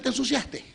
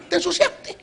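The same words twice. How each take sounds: First: Said in the usual way. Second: "Te ensuciaste" high, with a laugh; emphatic repeat. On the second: Acted. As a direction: toss "Te ensuciaste" back up high, teasing. Repite para enfatizar. ("Te ensuciaste" agudo y entre risas)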